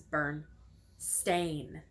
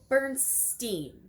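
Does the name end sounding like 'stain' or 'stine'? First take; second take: stain; stine. First: The last syllable sounds like 'stain'. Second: The last syllable sounds like 'stine'. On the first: This is the name's actual form. The speaker calls it right. "but in all actuality, it was" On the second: This is how most people remember the name. The speaker calls it wrong. "Normally, people would say"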